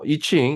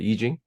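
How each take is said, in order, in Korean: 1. 두 번째 음절은 'ch' 소리로 시작해요. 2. 두 번째 음절은 'j' 소리로 시작해요. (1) "이칭으로 그동안 알려져, 알려져 왔고" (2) "보통 요즘은 다시 이징을 쓰는데"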